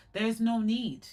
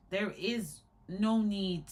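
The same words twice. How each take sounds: First: Said in the usual way. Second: "no" leaned on, each word slowed; slow down and press on "no"; slow, stressed no. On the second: Shown as a demonstration. Insisting to viewers, slow and stressed on "no".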